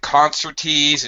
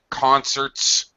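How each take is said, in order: First: The word ends with an added vowel syllable. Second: The word ends plainly without an added syllable. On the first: The speaker calls it wrong. "not concertees" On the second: The speaker calls it right. "concerts, not concertees"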